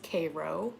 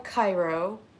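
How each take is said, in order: First: It is said with the local Georgia pronunciation. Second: It is said with the usual, widespread pronunciation. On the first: "here in Georgia it's Cairo" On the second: "we have a Cairo"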